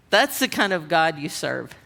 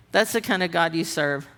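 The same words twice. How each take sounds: The two takes are said the same way.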